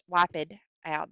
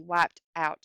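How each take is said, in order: First: "wiped" said as two syllables, wip-ed. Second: Said in the usual way. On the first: Shown as a demonstration. Teacher showing the class how "wiped" scans, wi-ped. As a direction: stretch "wiped" into wi-ped for the meter. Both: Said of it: "that accent".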